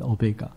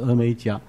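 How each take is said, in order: First: The name is said as o-me-ga. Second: The name is said as e-mei-jia. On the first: This is the original pronunciation. "真正的读音是这样读的" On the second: This is the form used in the Chinese translation. "我们中文把它翻译成阿拉法跟俄美甲"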